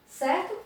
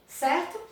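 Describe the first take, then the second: No difference in how they are said.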